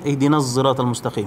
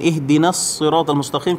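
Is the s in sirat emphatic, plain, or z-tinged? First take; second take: z-tinged; emphatic. First: The s in sirat is tinged with z. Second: The s in sirat is emphatic. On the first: "qiraat Hamzah baca dengan ismamuz za" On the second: "kita baca dengan sad"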